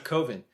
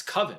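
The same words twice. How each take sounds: First: Coven said COH-vən; mistaken long-O Coven. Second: Coven said KUV-ən; standard short-vowel Coven. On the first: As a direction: say Coven with the O of "cove". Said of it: "it's not Coven". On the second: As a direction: say Coven to rhyme with "oven". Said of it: "you're saying that word wrong". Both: Retold or imitated.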